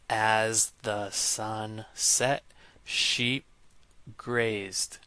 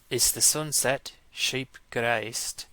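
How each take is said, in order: First: It is spoken in an American accent. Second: It is spoken in a South African accent. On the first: "if I was an American, I might pronounce that set of phonemes as" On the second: "If I was South African, I might say ... So that'd be an Afrikaans accent"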